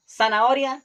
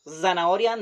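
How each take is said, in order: First: "zanahoria" said as "sanaoria", louder and higher; hissed S to open zanahoria. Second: "zanahoria" opened with a voiced English Z; buzzed Z. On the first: Teacher showing the Costa Rican way, zanahoria with S. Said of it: "only S". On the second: Teacher showing the rejected form, zanahoria with buzzed Z. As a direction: buzz the Z at the start of zanahoria. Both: Shown as a demonstration.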